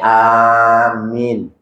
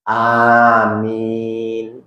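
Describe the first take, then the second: First: The vowel after the m is short. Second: Both vowels are drawn out long. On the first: "atau minnya pendek" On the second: "dua-duanya panjang"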